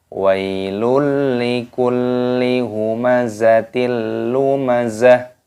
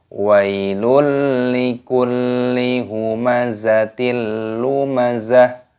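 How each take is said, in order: No difference in how they are said.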